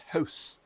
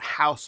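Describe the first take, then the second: First: It is said in a Canadian accent. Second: It is said in an American accent.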